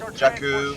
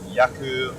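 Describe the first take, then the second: First: The word begins with a hard J sound. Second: The word begins with a Y sound. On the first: The speaker calls it right. "with a hard J" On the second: The speaker calls it wrong. "not Yaku, like yogging"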